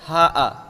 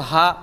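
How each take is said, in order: First: The glottal stop is followed by an a vowel. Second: The word ends in a glottal stop with no vowel. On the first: "हमज़े मफ़तूहा के साथ" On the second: "हा के बाद हमज़ा और साकिन होता है"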